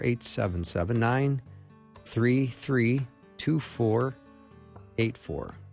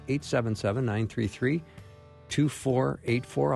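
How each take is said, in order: First: The number is read more slowly and deliberately. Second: The number is read at a normal, faster pace.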